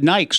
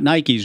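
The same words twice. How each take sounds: First: The word is said as one syllable. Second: The word is said as two syllables. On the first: This is how the brand name was said early on. "We said Nikes, not Nikes, in the early day" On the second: This is how the brand name is said now. "not Nikes"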